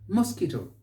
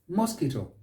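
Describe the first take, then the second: The two takes are said the same way.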